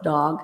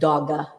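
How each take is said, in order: First: The word ends without an extra vowel. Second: An extra vowel is added at the end. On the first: The speaker calls it right. "instead of dog" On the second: The speaker calls it wrong. "add an extra sound at the end of the word"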